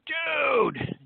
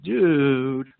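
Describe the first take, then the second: First: It sounds thrilled and excited. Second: It sounds dismayed and annoyed. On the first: The speaker has had great good fortune. "if you just won the Powerball lottery" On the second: The speaker is upset about something. "if you were to express consternation"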